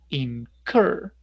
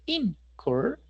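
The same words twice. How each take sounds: First: The stress is on the second syllable. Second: The stress is on the first syllable. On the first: The speaker calls it right. "El acento va en cur" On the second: The speaker calls it wrong. "No es incur"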